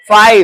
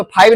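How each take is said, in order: First: "फाइव" with a true f sound; corrected pronunciation. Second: "फाइव" begun with a puffed ph instead of f; wrong pronunciation. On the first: Teacher models the letter F for pupils, corrected pronunciation. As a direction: open "फाइव" on a clear f. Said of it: "एफ है ना, फाइव". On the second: Teacher shows pupils the error, wrong pronunciation. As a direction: say "फाइव" as "phaiv". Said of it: "इसको फाइव नहीं". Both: Shown as a demonstration.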